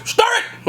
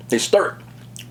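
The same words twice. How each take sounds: First: High-pitched mock yell of stir it; imitating a commenter yelling. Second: Said in the usual way. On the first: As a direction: fake all-caps comment yell. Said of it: "people yelling capital letters". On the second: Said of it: "And then people yelling capital letters".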